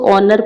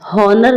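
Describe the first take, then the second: First: The word starts with a vowel, no h sound. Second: The word starts with a clear h sound. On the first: The speaker calls it right. "इसको ऑनर पढ़ते हैं" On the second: The speaker calls it wrong. "हॉनर नहीं पढ़ते हैं"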